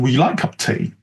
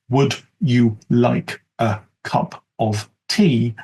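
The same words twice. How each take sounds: First: Words are squeezed together and heavily reduced. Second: Every word is pronounced fully and separately. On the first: "And perhaps if they're in the U K, even" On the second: "as the standard?"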